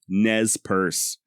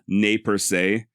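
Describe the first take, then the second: First: The name is pronounced the modern English way. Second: The name is pronounced the original French way. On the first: "a more modern day pronunciation of Nez Perce. ... Exactly as I am" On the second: This is how the name was originally said. "the original French sounded something along the lines of ne per se"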